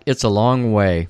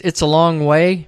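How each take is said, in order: First: Lower, matter-of-fact echo; man's concession. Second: Higher voice for the woman; woman's objection. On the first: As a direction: agree simply, voice dropping. Man echoes her, conceding. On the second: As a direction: point out the distance, pitched up. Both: Retold or imitated.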